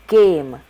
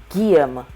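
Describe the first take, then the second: No difference in how they are said.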